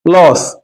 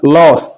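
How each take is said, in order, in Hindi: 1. स्वर मुंह को पूरा खोलकर बोला जाता है। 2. स्वर मुंह को पूरा खोलकर बोला जाता है।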